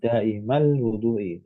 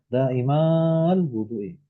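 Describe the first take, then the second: First: The vowel in daimal is kept short. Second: The vowel in daimal is drawn out long. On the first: The speaker calls it right. "tetap daimal wudu'i" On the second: The speaker calls it wrong. "Nggak usah"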